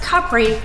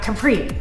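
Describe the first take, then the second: First: It is said the non-American, local way. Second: It is said the American English way. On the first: The speaker calls it right. "And that's Capri" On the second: The speaker calls it wrong. "not Capri, as we say in American English"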